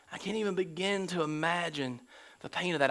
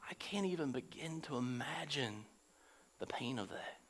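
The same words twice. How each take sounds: First: Said in the usual way. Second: Whispered, much softer and lower; whispered empathy; hushed whisper. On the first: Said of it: "repeated aloud after whisper". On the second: Real, not acted. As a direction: breathe it out in awe of the pain. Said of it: "whispered then repeated aloud".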